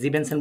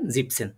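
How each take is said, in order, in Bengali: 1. শব্দটি তিনটি শব্দাংশে বলা হয়। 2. শব্দটি দুটি শব্দাংশে বলা হয়। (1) "জিবেনসেন বলে ফেলবেন না" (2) "একটু খেয়াল রাখবেন, জিপসেন"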